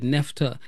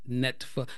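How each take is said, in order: First: The f sound comes before the t sound. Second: The t sound comes before the f sound. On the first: The speaker calls it wrong. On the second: The speaker calls it right.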